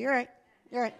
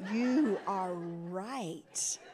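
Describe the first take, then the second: First: It is said quickly, with 'you are' run together as 'you're'. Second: It is said slowly, with 'you' and 'are' as separate clear words. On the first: The speaker admits being wrong grudgingly and quickly. The speaker calls it wrong. "You say you're right" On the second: The speaker admits being wrong clearly and fully. The speaker calls it right. "Say it again. Say it slowly"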